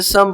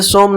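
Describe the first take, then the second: First: "सम" with a short, unrounded uh vowel; "सम" with short uh, no O sound. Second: "सोम" with a long O vowel; wrong reading with O. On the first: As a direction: say "सम", rhyming with hum. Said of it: "इसे सम पढ़ते हैं". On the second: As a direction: say "सोम", rhyming with home. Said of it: "इसे सोम नहीं पढ़ते". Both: Shown as a demonstration.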